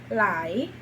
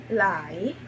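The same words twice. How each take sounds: The two takes are said the same way.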